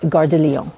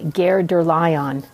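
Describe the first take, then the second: First: The name is said with French pronunciation. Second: The name is said with English-style pronunciation. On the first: This is how a good navigation voice says it. The speaker calls it right. "which is how it's pronounced" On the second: This is how a poor navigation voice says it. The speaker calls it wrong. "Apple will say"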